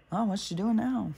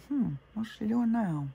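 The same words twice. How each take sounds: First: A light mock of a nosy neighbor; curious, gossipy peek out the window. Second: Mock nosy neighbor with a musing hum; prying neighbor hum. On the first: Imitating neighbors watching her from the window, lightly mocking. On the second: Imitating neighbors wondering about her, musing hum.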